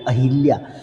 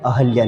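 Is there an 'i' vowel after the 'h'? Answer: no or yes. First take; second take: yes; no. First: An i vowel is heard after the h. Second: No vowel is heard between the h and l. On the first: The speaker calls it wrong. "ना कि अहिल्या" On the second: The speaker calls it right. "क्या होता है? अहल्या"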